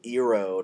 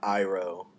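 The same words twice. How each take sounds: First: The first vowel is said the film's way. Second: The first vowel is said the show's way. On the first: The speaker calls it wrong. "They pronounced it Uncle Iroh" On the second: The speaker calls it right. "not Iroh"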